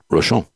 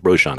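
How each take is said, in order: First: Rochon said the French way, ro-SHOHN, stress on the end. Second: Roshan said the English way, ROH-shahn; the name Roshan with an American English sound. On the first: The host repeating how the Frenchman said Rochon. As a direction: Rochon with a light French vowel and final nasal. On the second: The host anglicizing his own surname, Roshan. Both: Retold or imitated. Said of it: "You said my name right".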